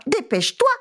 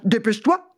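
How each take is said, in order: First: Dépêche-toi mewed high and urgent; high mewing cat hurry. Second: Dépêche-toi as a mild dog growl; lightly growled dog hurry. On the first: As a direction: urge the mouse like a mewing cat. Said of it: "miaulait le chat". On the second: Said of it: "grondait le chien". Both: Acted.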